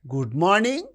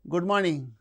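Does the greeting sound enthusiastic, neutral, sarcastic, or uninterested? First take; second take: sarcastic; uninterested. First: The greeting sounds mocking and sarcastic. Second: The greeting sounds flat and uninterested. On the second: "it is uninterested"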